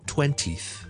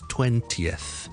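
First: The final th sound is weak or missing. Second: The word ends with a clear th sound. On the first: The speaker calls it wrong. "it's not twentieth" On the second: The speaker calls it right. "it's twentieth"

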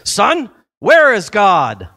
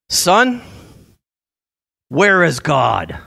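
First: The question is asked in a stronger, forceful voice. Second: The question is asked in a calm, mild voice.

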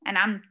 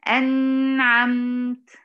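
First: The n sound is cut very short. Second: The n sound is held too long. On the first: "فين النون؟ ملحقتش" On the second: "ليه بتزودي في زمن النون"

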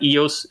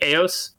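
First: The first vowel does not sound like 'ay'. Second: The first vowel sounds like 'ay'. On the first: The speaker calls it wrong. "it's not Eos" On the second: The speaker calls it right. "a EU that sounds more A"

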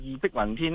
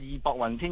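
First: The second syllable is pronounced bik. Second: The second syllable is pronounced bok. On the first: The speaker calls it right. "我哋老一辈都识得系义碧云天" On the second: The speaker calls it wrong. "冇话义薄云天"

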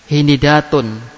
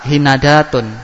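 First: An i vowel comes right after the n. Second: An a vowel comes right after the n. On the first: "pertama idba" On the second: "Yang ketiga fathah"

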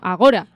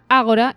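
First: The stress is on the second syllable. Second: The stress is on the first syllable. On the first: The speaker calls it wrong. "y no Agora" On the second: The speaker calls it right. "yo hubiera pensado que se pronuncia Ágora"

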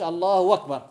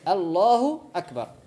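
First: Akbar starts with a w sound. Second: Akbar starts with a glottal stop. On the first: The speaker calls it wrong. "ما يقولش الله أكبر، بدلها الآ بالواو" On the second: The speaker calls it right. "فيها زوز همزة"

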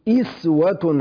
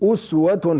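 First: The first vowel is an i sound. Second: The first vowel is a rounded u sound. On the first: "وقرأ الباقون بالكسر" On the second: "هذه قراءة عاصم وحده"

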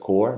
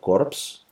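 First: It is said like 'core' with no final consonants. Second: It is said with the final 'p' and 's' sounded. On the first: The speaker calls it right. "así se pronuncia Corps" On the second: The speaker calls it wrong. "no Corps"

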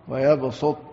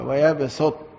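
First: The s sound is heavy and emphatic. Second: The s sound is light and thin. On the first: "والصاد مفخمة" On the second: "السين مرققة"

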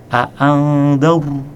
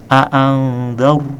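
The two takes are said the same way.

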